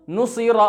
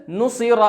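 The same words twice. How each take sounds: The two takes are said the same way.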